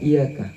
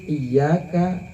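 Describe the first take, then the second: First: The y sound is short and single. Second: The y sound is held long and doubled. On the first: It can mean sunlight instead. The speaker calls it wrong. "jangan iyaka" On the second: It addresses God alone. The speaker calls it right. "ada tasdid iyyaka"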